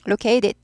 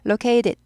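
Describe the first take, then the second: No difference in how they are said.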